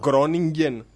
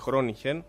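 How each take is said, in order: First: It starts with a hard g sound. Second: It starts with a throaty h-like sound. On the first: This is how it is learned locally. The speaker calls it wrong. "Εμείς εδώ πέρα έτσι τη μάθαμε" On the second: This is how the Dutch say it. The speaker calls it right. "το είπες με την Ολλανδική προφορά"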